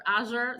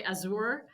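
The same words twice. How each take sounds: First: Azure pronounced AZH-er. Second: Azure pronounced a-ZOOR. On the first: Guest gives host her own pronunciation, Azure as AZH-er. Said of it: "I say Azure". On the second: Guest shows how other people say it, Azure as a-ZOOR. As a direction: stress the second syllable of Azure, long oo. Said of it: "some other people say Azure". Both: Shown as a demonstration.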